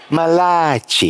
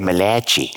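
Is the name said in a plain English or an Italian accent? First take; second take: Italian; plain English. First: The name is said in an exaggerated Italian accent. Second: The name is said in a plain English accent. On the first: The name sounds like an Italian word, making the joke work. The speaker calls it right. "You got to say Malachi. You got to throw the finger out there" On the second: The joke about the name would be missed. The speaker calls it wrong. "you can't expect people to understand that joke if you say Malachi"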